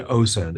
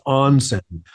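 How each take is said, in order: First: The word has no n sound before the s. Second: The word has an n sound before the s. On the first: The speaker calls it wrong. "I had said osen" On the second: The speaker calls it right. "It is onsen"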